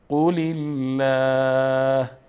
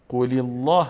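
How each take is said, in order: First: The L in Allah is light and thin. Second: The L in Allah is heavy and thick. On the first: The speaker calls it right. "اینجا لفظ جلاله را مرقق میکنیم" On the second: The speaker calls it wrong. "نمیخوانیم"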